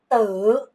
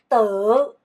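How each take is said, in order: The two takes are said the same way.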